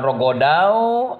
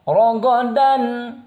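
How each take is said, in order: First: The final n is dropped. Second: The final n is clearly pronounced. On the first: The speaker calls it wrong. "bukan rogodau" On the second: The speaker calls it right. "dibacanya rogodan, dan tanwinnya terdengar"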